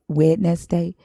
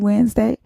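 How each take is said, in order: First: Every letter is sounded out as spelled. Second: It is said in the usual reduced form. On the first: This is how it is learned for spelling. "in my head I hear Wednesday because that's how we were taught how to how to spell it" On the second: This is how it is actually spoken. "when I say Wednesday"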